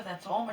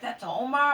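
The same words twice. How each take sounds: First: Said in the usual way. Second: Loud, high, incredulous That's Omar?; surprised disbelief. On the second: Retold or imitated. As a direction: repeat it back in shock. Friend shocked it's the dog.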